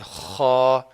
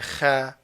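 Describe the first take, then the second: First: The kha sound is heavy and full. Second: The kha sound is light and thin. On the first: The speaker calls it right. "whereas it should be kha" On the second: The speaker calls it wrong. "he will say kha, kha, light one"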